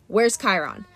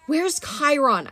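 First: Said in the usual way. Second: Urgent shout, drawn out; Percy shouting for help. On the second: Acted. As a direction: call out desperately for Chiron. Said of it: "I shouted".

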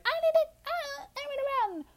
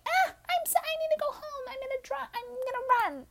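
First: Mock-dramatic, much higher voice; silly high voice. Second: Put-on much higher, panicky drunk squeal; frantic high voice. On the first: Mocking her drunk self fleeing, in a high squeaky voice. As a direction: squeak it out like a cartoon of yourself. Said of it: "It wasn't like I was just like". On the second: Correcting the impression of her drunk self, high frantic squeal. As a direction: squeal it in a frantic, teary rush. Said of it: "No, I was more like".

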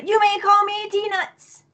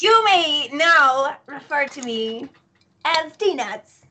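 First: High, slow, regal introduction; grand proclamation. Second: Slow, stately announcement of a new title; grand proclamation. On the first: Player redoing a ruined introduction for the party, high grand proclamation. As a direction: lift it high and stretch it out pompously. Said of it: "Do it again". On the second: Player's character announcing a new name to the party, grand proclamation. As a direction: draw it out like a self-crowned royal. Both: Acted.

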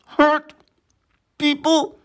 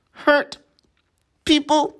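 First: "hurt" croaked high with a harder push, then "people"; croaked louder. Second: "Hurt people" croaked high, each word pulled apart. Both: Acted. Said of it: "Frog croaked".

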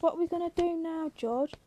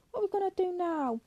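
First: Raised pitch, quick anxious question. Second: High, quick pleading question falling at the end; desperate plea. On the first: Candy asks George what happens next, anxious. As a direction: ask it anxiously, a little high and quick. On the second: Candy presses George for an answer, desperate. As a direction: plead it high and fast, voice lifted throughout. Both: A narrator's reading.

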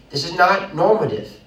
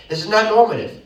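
First: "not" leaned on, moderate voice; stress on not. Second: "not" higher and louder; louder repeat. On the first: Preacher telling young couple's story, stressing "not". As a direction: press the word "not". First take of repeated line. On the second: Preacher restating his point, higher and louder. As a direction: lift the whole line and punch "not". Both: Real, not acted.

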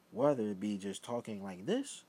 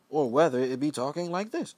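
First: Said in the usual way. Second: Louder and higher, projecting; louder demo voice. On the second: Shown as a demonstration. Showing viewers how he turns up his voice, louder and higher. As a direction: raise the volume to show the contrast. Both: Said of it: "the difference in the level of voice".

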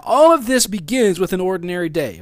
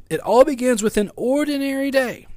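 First: Said in the usual way. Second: "ordinary" stretched and held high; emphatic restatement. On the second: Real, not acted. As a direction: lift and draw out the word "ordinary". Key point restated for emphasis.

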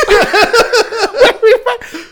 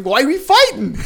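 First: Much higher and louder, slow and stretched through a laugh; laughing mock wail. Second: Said in the usual way. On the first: Repeating the wife's question to his friend with a laughing high wail. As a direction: wail the question comically while cracking up.

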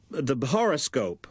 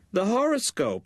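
First: Said in the usual way. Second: Repeated much higher and firmer; high, emphatic repeat of the horoscope; insistent mother. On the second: Acted. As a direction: say it again, pitched way up to make her hear. Mother repeats after "What?.

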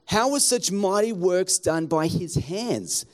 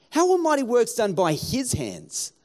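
First: Said in the usual way. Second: His hands with the weight on his; stress on his. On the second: Shown as a demonstration. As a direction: lean on the word his. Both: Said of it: "I'd emphasize the word his".

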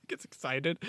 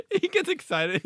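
First: Said in the usual way. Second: Much higher and louder, giddy; giddy high-pitched burst of glee; excited squeal. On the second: Retold or imitated. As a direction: squeal it like the mascot is thrilled.

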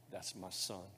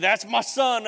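First: Hushed, gentle fatherly words; soft tender blessing. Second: Loud, high, proud declaration; booming proclamation. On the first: Pastor to the candidates, voicing God softly. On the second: Preacher voicing God over the congregation, loud and proud. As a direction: shout it like God announcing his son. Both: Acted.

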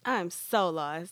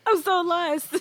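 First: Drawn-out slow bewilderment; slow puzzled mutter; slow and confused. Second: Higher, louder laughing repeat of being lost; cracking up at own confusion; laughing disbelief. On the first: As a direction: say it slowly, lost. First confused take. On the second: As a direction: throw up your hands, laughing. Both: Real, not acted.

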